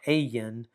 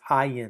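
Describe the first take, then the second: First: The first syllable sounds like the letter A. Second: The first syllable sounds like the word eye. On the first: The speaker calls it wrong. "It's it's letter A, but it's not Ayin" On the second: The speaker calls it right. "like E Y E, like your eyeball"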